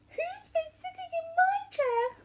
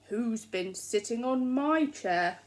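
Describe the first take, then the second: First: The voice is small, high and squeaky. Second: The voice is loud, deep and growly. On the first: "said Baby Bear in his little squeaky voice" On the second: "said Daddy Bear in his loud growly voice"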